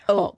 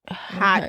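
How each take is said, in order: First: The word begins with a vowel sound. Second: The word begins with an H sound. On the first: The speaker calls it right. "but it's oat" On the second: The speaker calls it wrong. "A lot of people pronounce it hot couture"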